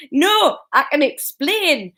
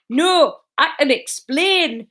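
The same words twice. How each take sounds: First: High, slow nervous squeak. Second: High, slow squeak of panic. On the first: Husband caught by wife, squeaking nervously. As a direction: squeak it out like a cornered man. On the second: Husband caught by wife, squeaking in panic. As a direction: squeak it out, caught red-handed. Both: A narrator's reading. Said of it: "Norman squeaked".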